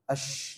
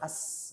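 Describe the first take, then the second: First: The word begins with a 'sh' sound. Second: The word begins with a plain 's' sound. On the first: The speaker calls it right. "Ash jangan as" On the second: The speaker calls it wrong. "jangan as"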